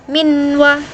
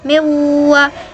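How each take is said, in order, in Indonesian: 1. N yang jelas diucapkan sebelum w. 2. N menyatu penuh dengan w berikutnya. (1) "jangan minwa begitu" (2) "langsung dimasukkan saja ke wawunya"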